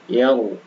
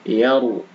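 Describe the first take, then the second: The two takes are said the same way.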